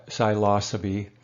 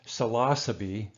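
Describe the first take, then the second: First: Psilocybe said sigh-LAH-suh-bee; alternative pronunciation. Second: Psilocybe said suh-LAH-suh-bee; Latin pronunciation. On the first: Lecturer offering students another pronunciation, psilocybe as sigh-LAH-suh-bee. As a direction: open psilocybe with a long, slow "sigh" syllable. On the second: Lecturer showing students the proper Latin, psilocybe as suh-LAH-suh-bee. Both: Shown as a demonstration. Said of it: "the pronunciation of, um, psilocybin mushrooms".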